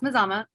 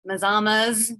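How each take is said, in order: First: The name ends on a vowel, no s. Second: The name ends with an added s sound. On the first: The speaker calls it right. "So it is pronounced Mazama" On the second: The speaker calls it wrong. "There's no S on the end"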